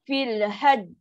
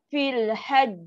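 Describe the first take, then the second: Both takes have the same delivery.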